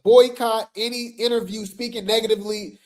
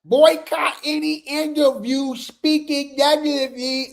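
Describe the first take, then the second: First: Said in the usual way. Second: Lightly voiced mock-solemn fan; put-on fan voice. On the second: Shown as a demonstration. Rereading the flyer to viewers, in a lightly put-on fan voice. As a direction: redo it in the mocking voice. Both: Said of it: "My bad".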